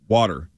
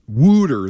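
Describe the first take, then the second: First: It is said in a standard accent. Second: It is said in a Philadelphia accent.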